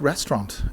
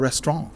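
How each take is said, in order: First: It is said with an English pronunciation. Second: It is said with a French pronunciation. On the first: The speaker calls it wrong. "we mispronounce like restaurant" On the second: The speaker calls it right. "It's le restaurant"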